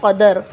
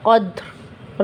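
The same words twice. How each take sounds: First: कदर with an added vowel after द; the mistake, कदर with an extra a; wrong pronunciation. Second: कद्र with द and र joined, no vowel between; the right stop, कद्र as one cluster; correct pronunciation. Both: Shown as a demonstration. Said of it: "कदर नहीं है".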